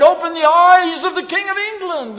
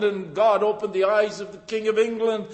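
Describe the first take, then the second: First: High, loud martyr's cry; cried out. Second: Said in the usual way. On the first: Retold or imitated. Preacher voicing Tyndale at the stake, crying out. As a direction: cry it out like a dying prayer. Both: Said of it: "and cried".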